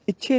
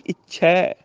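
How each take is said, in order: First: ਇੱਛੇ said "ichhay", closed final e; mistaken e ending. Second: ਇੱਛੈ said "ichhai", open final vowel; correct ai ending. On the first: Teacher shows the mistake, ਇੱਛੇ as "ichhe". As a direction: keep the end of ਇੱਛੇ narrow. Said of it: "ਗਲਤ ਹੋ ਗਿਆ". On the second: Teacher corrects it, ਇੱਛੈ as "ichhai". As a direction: open and hold the end of ਇੱਛੈ. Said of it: "ਇੱਛੇ ਨਹੀਂ". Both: Shown as a demonstration.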